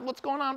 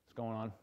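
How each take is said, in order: First: It is said excitedly with high energy. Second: It is said calmly with low energy.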